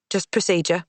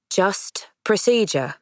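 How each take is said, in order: First: Said in the usual way. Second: "Just procedure" slow, each word firm; determined repeat. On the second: Acted. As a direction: lean on "procedure", slow and final. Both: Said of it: "Clements repeats with determination".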